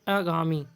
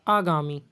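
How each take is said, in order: The two takes are said the same way.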